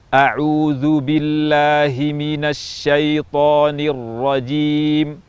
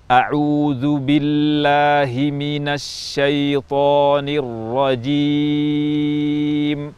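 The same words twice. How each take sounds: First: It is recited at a medium pace. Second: It is recited at a slow pace. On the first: "tempo pertengahan atau at-tadwir" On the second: "at-tahqiq, yaitu tempo lambat"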